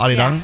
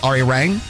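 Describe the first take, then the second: First: The middle consonant is a light D-like tap. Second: The middle consonant is a full English R. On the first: "with like a little light D in the middle" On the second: "or you can say it Ari Rang"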